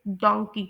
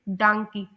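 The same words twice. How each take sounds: First: डोंकी with a rounded "o", like donkey; British donkey. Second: डांकी with an open "aa", like dahnkey; American donkey. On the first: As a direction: say डोंकी the UK way, "don-kee". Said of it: "इसे pronounce करते हैं UK में". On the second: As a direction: say डांकी the US way, "dahn-kee". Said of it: "US में". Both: Shown as a demonstration.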